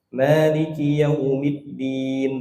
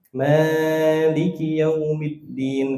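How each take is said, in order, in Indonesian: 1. Vokal panjangnya hanya ditahan sebentar. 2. Vokal panjangnya ditarik sangat panjang. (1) "dua harokat aja cukup"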